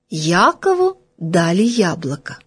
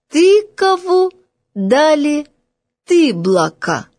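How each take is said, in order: First: Said in the usual way. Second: Put-on high, sing-out child's reading, words stretched; little girl reading aloud. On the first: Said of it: "чёрным по белому написано". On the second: A narrator's reading. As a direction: read out like a primer pupil, starting high. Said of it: "бегло, не переводя дыхание, прочла".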